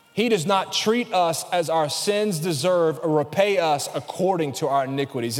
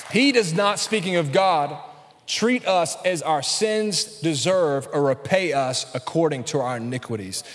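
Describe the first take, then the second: First: Said in the usual way. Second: Slow emphatic reread. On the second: Shown as a demonstration. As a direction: stress on He, then slow and deliberate. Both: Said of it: "I'm gonna read it again".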